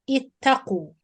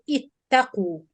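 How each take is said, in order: Both takes have the same delivery.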